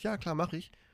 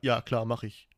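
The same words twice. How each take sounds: First: It is said in a female assistant's voice. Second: It is said in a male assistant's voice.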